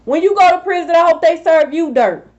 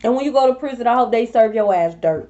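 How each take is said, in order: First: Raised, forceful repeat of the wish; emphatic repeat. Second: Said in the usual way. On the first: Real, not acted. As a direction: say it again with more bite. Repeats the curse, more forcefully.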